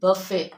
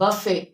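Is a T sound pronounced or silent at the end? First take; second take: silent; silent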